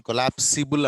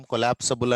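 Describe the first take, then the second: First: కొలాప్సిబుల్ with "si" before the final "bul"; spelling-based pronunciation. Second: కొలాప్సబుల్ with "sa" before the final "bul"; usual spoken pronunciation. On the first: Teacher shows what we don't say, కొలాప్సిబుల్ with an "i" sound. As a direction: say కొలాప్సిబుల్ as spelt, "ko-laps-i-bul". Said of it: "మనం pronunciation కొలాప్సిబుల్ అన్నాం". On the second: Teacher shows how we say it, కొలాప్సబుల్ with an "a" sound. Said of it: "కొలాప్సబుల్ అని అంటాం". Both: Shown as a demonstration.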